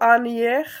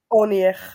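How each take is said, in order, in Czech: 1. První samohláska je otevřené 'a'. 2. První samohláska je krátké 'o'. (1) "nebude to anjech" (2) "ale to bude krátký onjech"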